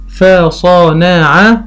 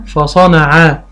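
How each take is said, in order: First: فصنع stretched out very slowly, rising at the end; very slow sounding out. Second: Said in the usual way. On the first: Shown as a demonstration. Teacher sounding out for a child, slowly. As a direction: draw فصنع out. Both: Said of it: "فيقول قطع".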